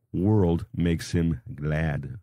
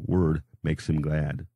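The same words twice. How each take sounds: First: World makes him glad, with a clear l in world; misread as world. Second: Word makes him glad, said slowly, no l in word; deliberate slow correction, word without an l; corrected to word. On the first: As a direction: slip and say world, with the l sounded, instead of word. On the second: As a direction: carefully say word, not world. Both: Shown as a demonstration. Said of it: "not world".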